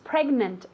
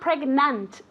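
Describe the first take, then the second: First: The last vowel sounds like an E. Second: The last vowel sounds like an A. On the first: The speaker calls it right. "as if it were with an E" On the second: The speaker calls it wrong. "remember it's not pregnant"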